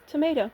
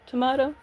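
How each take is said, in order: First: "tomato" with an AY in the middle; "tomato" rhyming with "potato"; American-style tomato. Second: "Tomato" with an AH in the middle; "Tomato" rhyming with "legato"; British-style tomato. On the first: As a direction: say "tomato" as tuh-MAY-toh. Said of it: "you say tomato". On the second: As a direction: say "Tomato" as tuh-MAH-toh. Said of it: "I say tomato". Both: Shown as a demonstration.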